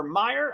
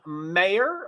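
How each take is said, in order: First: "Meyer" said with an EYE vowel, MY-er; alternative pronunciation. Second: "Mayer" said with an AY vowel, MAY-er; name pronunciation. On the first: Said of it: "I think it's Mayer". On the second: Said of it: "I think I keep saying it wrong". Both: Shown as a demonstration.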